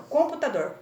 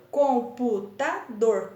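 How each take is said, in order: First: Said in the usual way. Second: COM - PU - TA - DOR, slow and separated; teacher sounding out COM-PU-TA-DOR; split into syllables. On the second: Shown as a demonstration. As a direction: say computador in four slow beats, COM, PU, TA, DOR. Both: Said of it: "Quatro sílabas".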